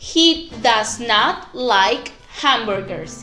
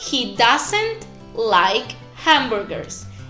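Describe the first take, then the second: First: Does and not are said as two full words. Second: Does and not are joined into one short word.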